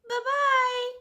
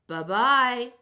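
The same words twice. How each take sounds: First: It is said in a high squeaky voice. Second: It is said in a deep gruff voice.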